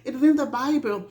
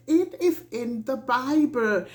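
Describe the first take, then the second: First: "It is in the Bible" rattled off fast with the weight on "in"; rapid, insistent restatement; quick insistent repeat. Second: Plain emphatic "is"; firm statement. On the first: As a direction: fire it back quickly. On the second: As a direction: stress on "is" in "It is in the Bible", level and deliberate. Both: Shown as a demonstration. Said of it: "Why shouldn't I feel like this?".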